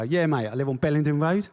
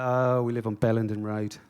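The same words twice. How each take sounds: First: Higher, louder put-on South London accent; matey South London accent, laying it on. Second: Said in the usual way. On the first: Answering the builders in a put-on South London accent. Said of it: "I go". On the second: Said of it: "I don't speak like that when I talk to the builders".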